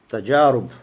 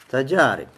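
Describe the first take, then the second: First: The last vowel is u. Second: The last vowel is i. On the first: The speaker calls it wrong. "многие так говорят ... но это неправильно" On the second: The speaker calls it right. "правильно"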